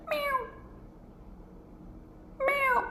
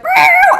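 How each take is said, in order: First: Small, high, soft mew; calm cat meow. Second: Very high, loud yowl; screaming cat meow. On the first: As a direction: imitate a contented little cat quietly. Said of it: "she was kinda fine". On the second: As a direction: imitate a cat wailing for dear life. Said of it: "screaming for dear life". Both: Retold or imitated.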